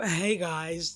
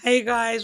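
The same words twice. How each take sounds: First: Imitating Michelle. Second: Said in the usual way. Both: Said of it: "Sound like Michelle now".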